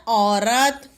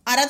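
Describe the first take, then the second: First: औरत starting on a long औ; औरत sounded out as "au-rat"; corrected word. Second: अरथ starting on a short "a"; quick opening vowel in अरथ; misspelt word. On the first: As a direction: draw out "au" in औरत. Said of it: "क्या होता है". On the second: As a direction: say अरथ as "a-rat", no औ. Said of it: "शब्द नहीं होता". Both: Shown as a demonstration.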